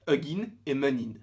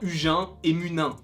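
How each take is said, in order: First: The names are said with an English-like accent. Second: The names are said with a French accent. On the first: "prendre un accent un petit peu plus anglophone" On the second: "on peut dire Hugin et Munin"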